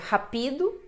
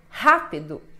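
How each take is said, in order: First: The stress falls on a later syllable. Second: The stress falls on the first syllable. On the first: The speaker calls it wrong. "você não vai dizer rapido" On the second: The speaker calls it right. "o Rá é a sílaba mais forte"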